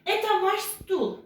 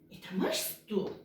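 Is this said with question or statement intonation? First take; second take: statement; question. First: It is said with plain statement intonation. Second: It is said with questioning intonation. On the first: It states that this is ours. "bu sizin sandalyeniz" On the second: It asks whether this is ours. "bu sizin sandalyeniz mi?"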